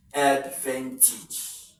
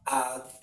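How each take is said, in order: First: "advantage" drawn out, ending in "tij"; teacher's corrected "advantage" with an E sound in the last syllable. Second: "advantage" split up, ending in a full "tayj"; teacher's trial "advantage" with a long A in the ending; uncorrected word ending. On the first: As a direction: say "advantage" slowly as "ad-van-tij". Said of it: "This letter should be E sound". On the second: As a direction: break "advantage" into syllables, last one "tayj". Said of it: "pronounce this word". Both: Shown as a demonstration.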